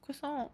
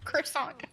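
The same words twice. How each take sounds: First: The word is said with a French pronunciation. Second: The word is said with an English pronunciation. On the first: This is the proper pronunciation. The speaker calls it right. "no, it's croissant" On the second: This is the common but improper pronunciation. The speaker calls it wrong. "not a croissant"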